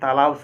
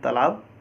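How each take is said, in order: First: The vowel is kept short as expected. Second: A short vowel is lengthened to a long aa. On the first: The speaker calls it right. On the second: The speaker calls it wrong.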